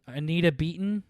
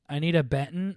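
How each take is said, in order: First: The surname's first vowel sounds like beet. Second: The surname's first vowel sounds like bet. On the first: The speaker calls it right. "Pronounce the E as an E" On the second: The speaker calls it wrong. "instead of an eh"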